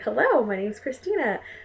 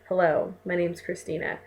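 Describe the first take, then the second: First: It sounds warm and smiling. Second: It sounds flat and unsmiling.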